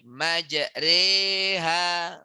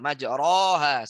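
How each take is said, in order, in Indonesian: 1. Vokal setelah 'majr' terdengar seperti 'e'. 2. Vokal setelah 'majr' terdengar seperti 'o'. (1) "Tapi bacanya adalah majre. A dan I. E" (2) "A, U menjadi O nanti. ... Salah"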